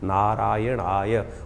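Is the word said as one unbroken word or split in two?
unbroken. The word is said as one smooth unit. The speaker calls it right.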